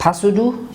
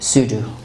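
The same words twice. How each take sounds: First: The initial P is pronounced. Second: The initial P is silent. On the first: The speaker calls it wrong. "This is not pseudo" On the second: The speaker calls it right. "it is pseudo"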